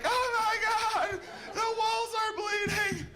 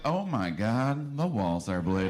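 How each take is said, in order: First: It is said in a panicked, terrified way. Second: It is said in a calm, amused way.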